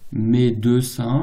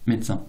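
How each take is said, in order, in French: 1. Le premier E est prononcé. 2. Le premier E est complètement supprimé.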